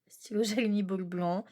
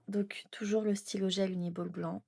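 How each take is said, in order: First: Voiced again, laughing midway; amused repeat, full voice. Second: Whispered aside about the pen; half-whispered product note. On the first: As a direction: repeat it aloud with a small laugh. Repeats pen name with a laugh. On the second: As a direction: breathe it, no voice. Reading out her pens to camera. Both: Real, not acted.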